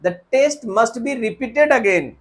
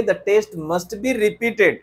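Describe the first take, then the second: First: Slow faulty sentence; slow wrong example. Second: Slow model sentence; slow corrected example. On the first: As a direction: read it out slowly. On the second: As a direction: model it slowly. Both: Shown as a demonstration. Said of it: "नहीं sir, हम कहेंगे".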